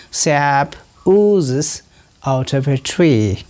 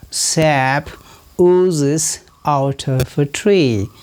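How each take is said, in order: Both takes have the same delivery.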